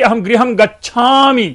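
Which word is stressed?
गच्छामि. The word गच्छामि carries the stress. I am leaving now and will not stay. "कि मैं भाई मैं अब नहीं रुकूंगा"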